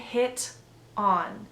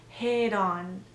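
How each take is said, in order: First: The t is a crisp, released T sound. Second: The t is a soft, quick D sound. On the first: The speaker calls it wrong. "Notice that I don't say hit on" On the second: The speaker calls it right. "It turns into a the the D sound"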